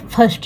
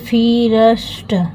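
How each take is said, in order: First: The vowel sounds like 'er' as in fur. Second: The vowel sounds like 'ee' before the r. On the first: The speaker calls it right. "ये फर्स्ट है" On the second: The speaker calls it wrong. "जब ऐसे बोलेंगे फीरस्ट"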